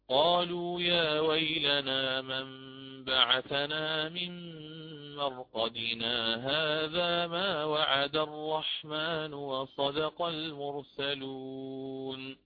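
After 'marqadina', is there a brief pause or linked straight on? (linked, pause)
linked. Marqadina runs straight on with no pause.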